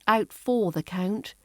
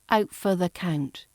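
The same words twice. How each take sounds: First: 'For' is said in its full, strong form. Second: 'For' is reduced, sounding like 'fur'. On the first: The speaker calls it wrong. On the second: The speaker calls it right. "use the weak form of for. So it sounds like fur"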